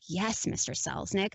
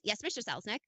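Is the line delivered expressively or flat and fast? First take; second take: expressive; flat and fast. First: It is said with varied, expressive, drawn-out delivery. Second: It is said quickly and flatly, without variation. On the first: "trying to make every every line so interesting" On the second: "Just say it fast. ... same same way every time"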